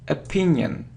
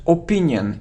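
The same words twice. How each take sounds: First: The first vowel is a weak 'uh' sound. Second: The first vowel sounds like 'or'. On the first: The speaker calls it right. "it's a" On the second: The speaker calls it wrong. "it isn't or"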